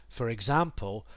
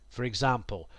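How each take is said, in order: Both takes have the same delivery.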